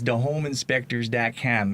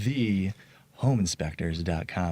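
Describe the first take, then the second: First: It has a thick Chicago accent. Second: It is carefully enunciated, with a clear 'th'.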